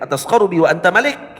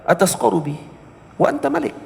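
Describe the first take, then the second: First: It is said in a harsh, hard tone. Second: It is said in a soft, gentle tone. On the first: You are mocking me. "tadi dibaca dengan nada yang keras" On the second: You have the right to humble me. "nada yang lebih lembut"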